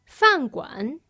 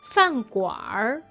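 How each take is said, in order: First: The word ends with a plain n sound. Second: The word ends with an added r sound.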